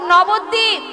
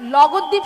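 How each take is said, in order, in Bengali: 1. নামটি n ধ্বনি দিয়ে শুরু। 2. নামটি l ধ্বনি দিয়ে শুরু। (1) "বল নবদ্বীপ।" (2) "সে আবার বলছে লগদ্বীপ"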